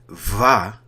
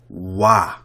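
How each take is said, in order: First: It begins with a V sound. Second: It begins with a W sound. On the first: This is the later pronunciation of the letter. "instead of it saying Va" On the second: This is the ancient pronunciation of the letter. "it would say Wa"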